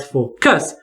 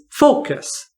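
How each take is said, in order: First: Focus said as fo-CUS; wrong final-syllable stress. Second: Focus said slowly as FO-cus; stress on first syllable. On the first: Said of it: "not focus". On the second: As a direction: stretch the FO of focus and let cus fall away. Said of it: "it's focus". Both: Shown as a demonstration.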